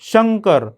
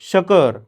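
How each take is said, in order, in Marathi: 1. 'k' च्या आधी स्पष्ट अनुनासिक आवाज येतो. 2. 'k' च्या आधी कोणताही अनुनासिक आवाज येत नाही. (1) "स्पष्ट आणि खणखणीत उच्चार" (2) "जर मी शंकरवर अनुस्वारच दिला नाही"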